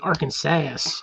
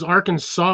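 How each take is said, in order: First: The final syllable sounds like 'sass'. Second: The final syllable sounds like 'saw'. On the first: The speaker calls it right. "them women over there have a lot of sass. So it should be Arkansas" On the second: The speaker calls it wrong. "if it was Arkansas, it would s- be end with a W"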